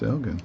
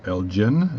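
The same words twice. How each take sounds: First: Elgin said with a hard G, EL-gin. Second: Elgin said with a soft G, EL-jin. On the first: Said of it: "or Elgin, as you guys like to say". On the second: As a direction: Elgin with the G as in gem. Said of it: "as you guys like to say". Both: Shown as a demonstration.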